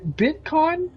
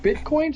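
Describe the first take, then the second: First: "Bitcoin?" said higher with a rising questioning tune; customer asking. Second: "Bitcoin?" echoed higher with a rising disbelieving tune; incredulous echo. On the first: Customer naming the payment method, "Bitcoin?" high and rising. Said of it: "And she goes". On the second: Clerk repeating the customer's word back, incredulous rising "Bitcoin?". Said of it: "And I was like". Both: Retold or imitated.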